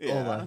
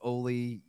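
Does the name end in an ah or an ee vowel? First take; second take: ah; ee. First: The name ends in an ah vowel. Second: The name ends in an ee vowel. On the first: The speaker calls it right. "it's Ola" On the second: The speaker calls it wrong. "we all pronounced it like Oli Jokinen"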